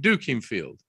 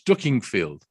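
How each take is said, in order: First: The town name is said the non-local way. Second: The town name is said the local way. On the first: The speaker does not know the local dialect. The speaker calls it wrong. "the person that's saying it is saying Dookingfield" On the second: The speaker matches the local dialect. The speaker calls it right. "It's Duckingfield, ... that's how you pronounce it"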